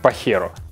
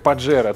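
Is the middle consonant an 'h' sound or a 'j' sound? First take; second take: h sound; j sound. First: The middle consonant is an 'h' sound. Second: The middle consonant is a 'j' sound. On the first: The speaker calls it right. "на самом деле у испанцев произносится как «Пахеро»" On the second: The speaker calls it wrong. "как «Паджеро»"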